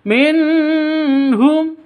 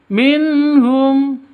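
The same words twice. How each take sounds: First: The n is held with a nasal hum. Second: The n is clear with no nasal hum. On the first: The speaker calls it wrong. "itu salah" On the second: The speaker calls it right. "Yang betul minhum, begitu"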